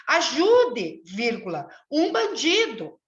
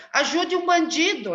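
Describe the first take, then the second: First: "Ajude" raised, a break, then a slow "um bandido"; with the comma. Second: One unbroken plea; "Ajude um bandido" run together with no pause; no comma. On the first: Teacher showing the corrected plea, with a pause at the comma. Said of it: "Leia a sua piada pra turma". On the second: Teacher reading the comic's wrong version aloud, unbroken. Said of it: "ela diz no primeiro quadrinho". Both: Shown as a demonstration.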